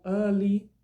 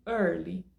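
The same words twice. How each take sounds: First: EARLY without the R, as 'uh-lee'; R dropped. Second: EARLY with a clear American R; EARLY, rhotic, carefully pronounced; R sounded. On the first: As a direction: demonstrate EARLY non-rhotic, loud and slow. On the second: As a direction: demonstrate EARLY keeping the R before L. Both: Shown as a demonstration. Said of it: "Dependendo da pronúncia que você preferir".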